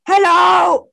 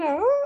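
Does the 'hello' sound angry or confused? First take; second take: angry; confused. First: It is said in a furious, angry tone. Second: It is said in a puzzled, questioning tone.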